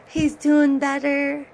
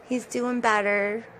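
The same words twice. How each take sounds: First: Higher, louder, drawn-out happy announcement; happy news. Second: Said in the usual way. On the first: Real, not acted. Owner telling viewers her cat Simba is recovering, delighted. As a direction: share the good news with delight.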